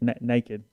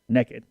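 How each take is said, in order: First: It is said the standard way, like nay-kid. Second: It is said the southern way, like nekkid. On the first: "I have to make myself do that" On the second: "it's a very southern thing"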